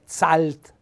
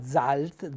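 First: The z at the start sounds hard. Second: The z at the start sounds soft. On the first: The speaker calls it wrong. "non è zalt" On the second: The speaker calls it right. "sentite la Z è dolce"

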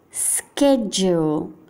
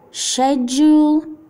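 First: It is said with an American English accent. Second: It is said with a British English accent. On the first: "inglese americano" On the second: "inglese britannico"

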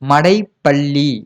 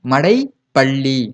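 The two takes are said the same way.

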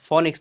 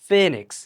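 First: The first vowel sounds like 'o'. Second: The first vowel sounds like 'e'. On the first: The speaker calls it wrong. "প্রকৃত উচ্চারণ কিন্তু ফনিক্স না" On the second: The speaker calls it right. "প্রকৃত উচ্চারণ"

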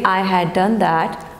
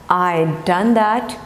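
First: The word 'had' is said in full. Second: 'Had' is reduced to a 'd' sound. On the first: "I had is I'd" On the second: "I had is I'd"

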